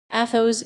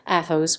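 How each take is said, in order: First: Calling a name out, a bit louder; a startled call of recognition; mild exclaim of a friend's name. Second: Anguished call to a friend; understated cry of dismay; cried. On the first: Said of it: "exclaimed D'Artagnan". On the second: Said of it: "cried D'Artagnan, wringing his hands". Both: A narrator's reading.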